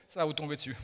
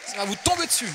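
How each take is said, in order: First: Said in the usual way. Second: High, loud proclamation; preacher's shout. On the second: Real, not acted. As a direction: shout the promise, punching TOMBER. Repeats the promise shouting.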